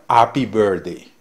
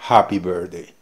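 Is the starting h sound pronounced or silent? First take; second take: silent; pronounced. First: The phrase starts with no h sound. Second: The phrase starts with an audible h sound. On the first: "diría happy birthday" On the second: "en lugar de decir happy birthday"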